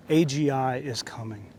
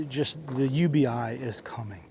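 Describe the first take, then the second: First: Said in the usual way. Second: Whisper. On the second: Real, not acted. Ranting vlogger warns viewers what's coming, whispered. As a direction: drop to a slow, ominous whisper.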